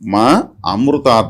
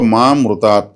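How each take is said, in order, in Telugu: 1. 'mrutat' ముందు అదనపు 'a' అచ్చు వస్తుంది. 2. 'mrutat' ముందు అదనపు అచ్చు రాదు. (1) "మమ్మల్ని అమృతాత్ అంటే కాపాడు అని అర్థం" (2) "మమ్మల్ని అందరిని చంపుకొని వెళ్ళిపో స్వామి అన్నట్లు మీనింగ్"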